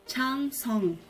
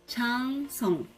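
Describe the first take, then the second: Both takes have the same delivery.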